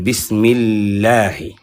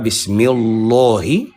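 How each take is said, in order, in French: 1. La partie 'Allah' se dit légère et fine. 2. La partie 'Allah' se dit lourde et pleine. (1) "alors la prononciation devient légère" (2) "C'est pas bismillahi"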